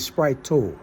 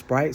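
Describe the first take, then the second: First: The word ends with an added 'oh' sound. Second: The word ends on a plain 't' sound. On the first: "sometimes they say" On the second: "instead of Sprite"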